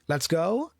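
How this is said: The voice rises at the end, like a question. It sounds like a question. The speaker calls it wrong. "never speak a let's sentence with a question tone. So don't say"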